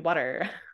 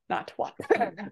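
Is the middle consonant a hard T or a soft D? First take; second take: soft D; hard T. First: The middle consonant is a soft D sound. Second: The middle consonant is a hard T sound. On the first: The speaker calls it right. "we do that D" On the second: The speaker calls it wrong. "that's a little bit aggressive"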